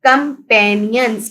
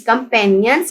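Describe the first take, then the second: First: companions slowly sounded out in parts; syllable by syllable. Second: Said in the usual way. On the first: Shown as a demonstration. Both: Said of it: "हम इसको read".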